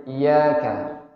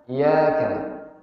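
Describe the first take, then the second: The two takes are said the same way.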